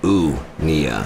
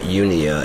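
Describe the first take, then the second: First: The word begins with an 'oo' sound. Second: The word begins with a 'you' sound. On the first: The speaker calls it right. "it's more like oo" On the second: The speaker calls it wrong. "It's not Unia"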